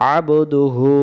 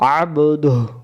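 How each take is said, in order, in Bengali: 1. শব্দটি শেষে u স্বরধ্বনি দিয়ে শেষ হয়। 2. শব্দটি h দিয়ে শেষ হয়, শেষে কোনো স্বরধ্বনি নেই। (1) "আর যদি এটা না থাকতো" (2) "হু পড়া লাগতো না"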